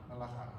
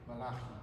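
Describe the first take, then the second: No difference in how they are said.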